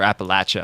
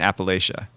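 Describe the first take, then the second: First: It is said the way locals say it. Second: It is said the usual non-local way.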